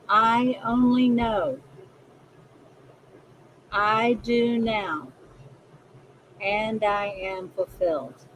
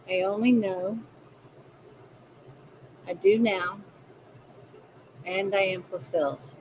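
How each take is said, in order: First: It is said slowly. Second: It is said at a normal pace.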